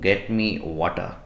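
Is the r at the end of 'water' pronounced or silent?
silent. The r at the end of water is silent. "British में कहते हैं ... रॉड नहीं बोला जाता है"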